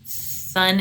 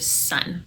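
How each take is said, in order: First: The s comes out lisped, like th. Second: The s comes out as a clear hiss. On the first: The speaker calls it wrong. "the tongue protrudes past their teeth and you get a lisp" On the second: The speaker calls it right. "instead of"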